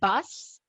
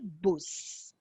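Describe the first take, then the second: First: The word is pronounced the English way. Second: The word is pronounced the German way. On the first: "we don't say bus in of Deutsch" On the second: "we say bus"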